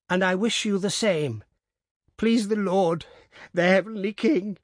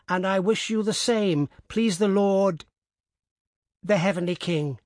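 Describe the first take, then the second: First: Put-on high old woman, voice starting to break; beginning to cry. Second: Put-on high old woman, steady and formal; old woman dictating. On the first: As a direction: repeat it as tears rise. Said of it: "she repeated, beginning to cry". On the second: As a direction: dictate the blessing evenly.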